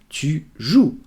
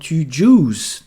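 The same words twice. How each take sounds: First: The final s is silent. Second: The final s is pronounced. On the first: The speaker calls it right. "Please do not pronounce it" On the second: The speaker calls it wrong. "Don't say tu joues"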